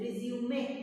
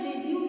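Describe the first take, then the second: First: The word ends with an 'ay' vowel sound. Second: The word ends on the 'm' consonant. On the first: The speaker calls it right. "ये जो ई लगा है ना, इसको हमें बोलना भी है" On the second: The speaker calls it wrong. "ये रिज्यूम नहीं है"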